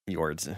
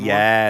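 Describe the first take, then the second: First: It is said in a plain accent, keeping the r. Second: It is said in a Boston accent, dropping the r. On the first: The speaker calls it right. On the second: The speaker calls it wrong.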